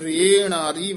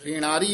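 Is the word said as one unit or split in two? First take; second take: split; one unit. First: The word is broken into two separate parts. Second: The word is said joined, without a break. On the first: The speaker calls it wrong. "ਵੱਖਰਾ ਨਹੀਂ ਕਹਿਣਾ" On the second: The speaker calls it right. "ਇਕੱਠਾ ਕਹਿਣਾ"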